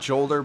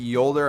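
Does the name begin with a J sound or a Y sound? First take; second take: J sound; Y sound. First: The name begins with a J sound. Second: The name begins with a Y sound. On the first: The speaker calls it wrong. "not Jolder" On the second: The speaker calls it right. "pronounced with a Y"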